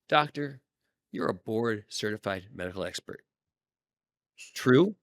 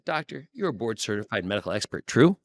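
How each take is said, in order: First: A short pause comes before the tag 'true'. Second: The tag 'true' follows the statement without a pause.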